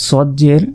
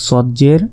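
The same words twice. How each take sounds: No difference in how they are said.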